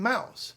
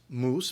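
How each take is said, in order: First: The vowel is an 'ow' sound. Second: The vowel is a long 'oo' sound. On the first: This is the newer pronunciation after the shift. "we started saying ow" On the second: This is the older pronunciation before the shift. "where we had been saying oo"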